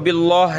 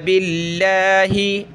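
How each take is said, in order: First: The word ends on the h with no vowel. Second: The word ends with a short 'i' vowel. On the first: The speaker calls it wrong. "इसको बिल्लाह नहीं पढ़ेंगे" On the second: The speaker calls it right. "यहाँ ज़ेर है बा पे"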